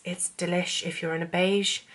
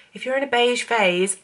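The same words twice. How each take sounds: First: Said in the usual way. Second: 'If you're in a beige phase' hoger en luider ingezet; emphatic correction. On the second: Shown as a demonstration. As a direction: herhaal het nadrukkelijk, met nadruk op 'in'.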